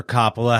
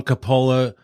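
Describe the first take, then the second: First: Coppola said "COP-uh-la"; Coppola stressed first. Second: Coppola said "co-POH-la"; Coppola with long O. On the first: Offering the other version of the name, Coppola as "COP-uh-la". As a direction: open first vowel and short middle in Coppola. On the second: Giving one version of the director's name, Coppola as "co-POH-la". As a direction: stress the long middle O in Coppola. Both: Shown as a demonstration. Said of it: "however you like to say his name".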